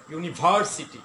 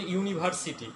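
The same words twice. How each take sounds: First: ইউনিভার্সিটি with ভার punched loud; native-speaker pronunciation. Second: ইউনিভার্সিটি said evenly the Bangladeshi way; local pronunciation. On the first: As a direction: hit the ভার in ইউনিভার্সিটি with a toothy v. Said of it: "native স্পিকাররা কি বলে". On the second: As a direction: say ইউনিভার্সিটি with no punched syllable. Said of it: "আমরা বলি". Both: Shown as a demonstration.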